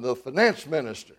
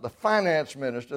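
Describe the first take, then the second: First: Finance is pronounced the Canadian way. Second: Finance is pronounced the American way. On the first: The speaker calls it right. "They call him the finance minister" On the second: The speaker calls it wrong. "not the finance minister. They don't say it that way"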